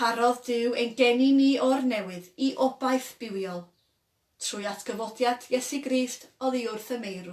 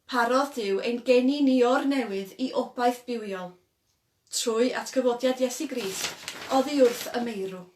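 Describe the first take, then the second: Both takes have the same delivery.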